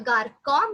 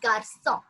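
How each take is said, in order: First: The middle consonant is a hard K sound. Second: The middle consonant is a soft S sound. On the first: The speaker calls it wrong. "if the accent C sedile would not be there, we could have pronounced it either garcon maybe" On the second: The speaker calls it right. "as it's there, we pronounce it as garçon"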